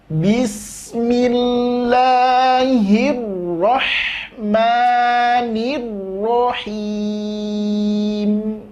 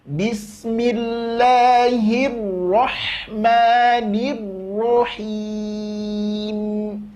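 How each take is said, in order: Both takes have the same delivery.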